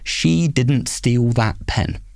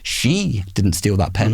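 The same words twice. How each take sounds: First: It is said flat with no word stressed. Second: The stress falls on the word she. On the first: "So flat" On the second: "someone else did"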